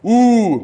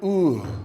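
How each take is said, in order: First: It is said forcefully, with gusto. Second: It is said weakly, without gusto.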